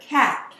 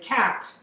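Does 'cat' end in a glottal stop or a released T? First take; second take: glottal stop; released T. First: The final T is cut off by a glottal stop. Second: The final T is clearly released and heard. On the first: "it's a glottal stop" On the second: "there isn't a time when I don't say cat"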